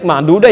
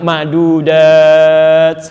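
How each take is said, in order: First: The final vowel is short. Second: The final vowel is long. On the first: "alifnya tidak ada, pendek" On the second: "yang satu panjang"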